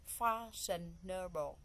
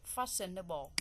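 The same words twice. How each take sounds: First: "Fashionable" broken slowly into four syllables. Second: Said in the usual way. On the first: Shown as a demonstration. Teacher counting out the four syllables of "Fashionable", syllable by syllable. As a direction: say "Fashionable" slowly, a gap after each syllable. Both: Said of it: "So we have four syllable".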